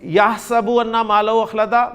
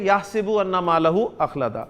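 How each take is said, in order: First: The first word has an a vowel after s. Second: The first word has an i vowel after s. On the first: This follows the Hafs reading used locally. "यही कुरान की आयत होगी आपकी कि" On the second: This follows another reading used elsewhere. "वो उसको पढ़ेंगे"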